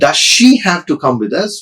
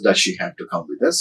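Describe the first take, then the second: First: It sounds like the speaker dislikes her. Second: It sounds neutral toward her.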